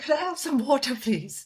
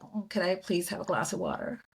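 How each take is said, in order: First: Put-on her old way of asking, a touch higher; a hint of the Indian accent she used then; own Indian accent, lightly shown. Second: Switching to an easy American way of asking; lightly put-on American accent; mild American accent. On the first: Her own earlier accent, lightly voiced. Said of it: "I was like". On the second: Retelling her switched American request to the stewardess, mild American accent. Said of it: "then I was like".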